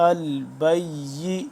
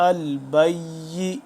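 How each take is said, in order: No difference in how they are said.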